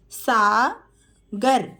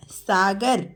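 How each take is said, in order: First: Sagar stretched very slowly; slow teacher model of Sagar. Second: Said in the usual way. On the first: Shown as a demonstration. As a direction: draw Sagar out sound by sound. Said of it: "teacher models name slowly". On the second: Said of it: "quick plain repeat".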